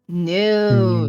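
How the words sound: The word is said with a growling sound. The speaker calls it right. "you have to go go with growl to it"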